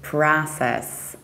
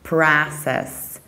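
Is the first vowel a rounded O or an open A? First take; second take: open A; open A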